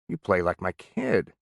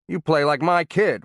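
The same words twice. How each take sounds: First: It is said softly, sounding bewildered and hurt. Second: It is said loudly and harshly, like a bully. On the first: The speaker is puzzled and hurt, not angry. "used a softer voice, and communicated bewilderment, even hurt" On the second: The player is blamed for laziness or poor preparation. "he played the bully with loud, harsh inflections"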